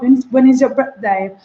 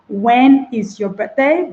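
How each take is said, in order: First: Said in the usual way. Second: "When is your birthday?" slowed, each syllable apart. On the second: Shown as a demonstration. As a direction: read it out syllable by syllable.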